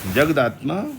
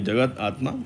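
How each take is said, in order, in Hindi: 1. यह एक जुड़े शब्द की तरह बोला जाता है। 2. यह दो अलग शब्दों की तरह बोला जाता है।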